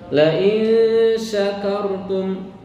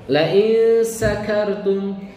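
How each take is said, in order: First: The consonant in syakartum is a sh sound. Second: The consonant in syakartum is a plain s sound. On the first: If you are grateful. The speaker calls it right. "kalau kamu bersyukur" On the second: If you are drunk. The speaker calls it wrong. "Kalau dibaca pakai sin"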